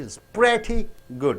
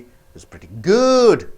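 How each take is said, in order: First: The stress falls on the word pretty. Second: The stress falls on the word good. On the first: The speaker does not like the movie. "When you stress on pretty, it means that you don't like it" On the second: The movie is all right. "Means the movie is all right"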